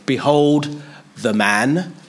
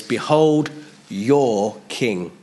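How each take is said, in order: First: Slow, drawn-out announcement; slow proclamation. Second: Slow, weighty announcement; slow proclamation. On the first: Pilate shows Jesus to the crowd, slow and solemn. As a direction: present him slowly, word by word. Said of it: "First he said". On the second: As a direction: hold each word of the proclamation. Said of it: "Now he says". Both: Retold or imitated.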